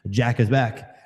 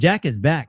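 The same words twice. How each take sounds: First: It is said in a put-on dramatic announcer voice. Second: It is said in an ordinary speaking voice.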